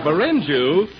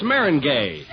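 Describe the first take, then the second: First: "Meringue?" echoed as muh-RIN-jew, wrongly with a j sound and no g; questioning "Meringue?" said muh-RIN-jew; mispronounced meringue. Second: "meringue" said as MEH-rin-gay, stress on the first syllable; firm corrective "meringue" pronounced MEH-rin-gay. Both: Shown as a demonstration. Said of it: "is that the way it's pronounced".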